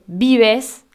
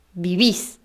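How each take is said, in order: First: Vives said slowly, stress on VI, ending in -es; tú form vives. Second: Vivís stressed on the last syllable with an i, viVÍS; voseo vivís. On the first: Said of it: "No decimos vives". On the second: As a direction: land the stress on VÍS in vivís. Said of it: "decimos vivís". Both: Shown as a demonstration.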